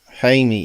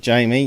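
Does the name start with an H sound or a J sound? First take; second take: H sound; J sound. First: The name starts with an H sound. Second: The name starts with a J sound. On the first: The speaker calls it right. "You got to replace J's with H's" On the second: The speaker calls it wrong. "you don't say Jamie"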